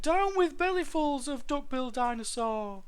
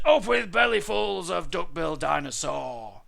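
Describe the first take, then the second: First: Put-on high-pitched young dinosaur hoot; small duckbill's piping protest. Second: Loud war chant, pitch raised; full-voiced tyrannosaur shout. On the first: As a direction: hoot the whole chant far up in pitch. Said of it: "he hooted". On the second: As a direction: bellow the hunting slogan. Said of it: "they shouted". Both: A narrator's reading.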